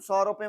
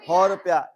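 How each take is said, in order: First: The first word begins with an s sound. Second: The first word begins with an h sound. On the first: "तुम सौ रुपए मांगेंगे" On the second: "ये हौ रुपया बोलेंगे"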